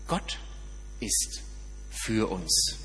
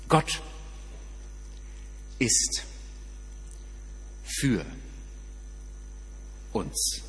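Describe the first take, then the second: First: The phrase is spoken at a normal pace. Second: The phrase is spoken slowly.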